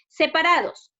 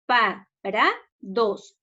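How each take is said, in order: First: Said in the usual way. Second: Separados split slowly as se, pa, ra, dos; syllable by syllable. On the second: Shown as a demonstration. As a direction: say Separados as four slow separate beats. (Separados separado en sílabas, lento y con pausas) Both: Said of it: "Separemos en sílabas".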